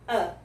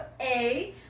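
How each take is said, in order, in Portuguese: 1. O artigo é pronunciado com uma vogal reduzida, o schwa. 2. O artigo é pronunciado com uma vogal plena.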